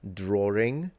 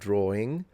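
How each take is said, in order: First: An R sound links the two vowels. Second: No R sound links the two vowels.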